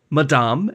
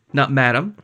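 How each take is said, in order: First: "Madame" said the French way, ma-DAHM with a nasal end. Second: "Madame" said the English way, MAD-um; flat English Madame, plain vowels; anglicized Madame. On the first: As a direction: stress the last syllable, French nasal vowel. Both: Shown as a demonstration. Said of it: "she was very specific about it".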